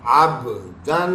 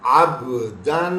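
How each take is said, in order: No difference in how they are said.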